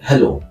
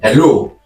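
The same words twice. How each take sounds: First: It is said in a low, quiet voice. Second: It is said in a high, loud voice.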